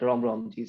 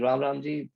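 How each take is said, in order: First: It is said with a local dialect pronunciation. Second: It is said with the standard pronunciation. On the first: This is how people in one region greet each other. "we have a dialect, different accent of saying things" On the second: This is how the greeting is meant to be said. "It is supposed to be"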